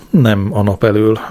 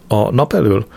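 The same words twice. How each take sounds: First: "nem" pressed firmly, the rest even; stress on nem. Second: Said in the usual way. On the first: Acted. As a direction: lean on "nem" to correct him. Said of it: "válaszolta".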